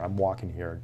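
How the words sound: It is yelled in the actor's natural voice. The actor broke character for real. "His voice changes and you hear Dustin Hoffman"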